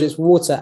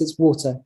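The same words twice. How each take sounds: First: It is said with a Canadian accent. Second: It is said with a British accent. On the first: The speaker calls it wrong. "George's Canadian accent" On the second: The speaker calls it right. "Queen's English"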